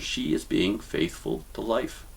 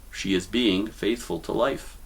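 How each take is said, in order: First: Slower, weighing every word; slow emphatic repeat. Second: Said in the usual way. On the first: Shown as a demonstration. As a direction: say it again slowly so it sinks in. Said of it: "I'll say it again because it's very important". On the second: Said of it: "I'll say it again".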